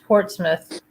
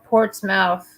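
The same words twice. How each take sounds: First: The letters are reduced, unlike the spelling. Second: Every letter is sounded out as spelled. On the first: The speaker calls it right. "but it's Portsmouth" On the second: The speaker calls it wrong. "it's spelled Portsmouth"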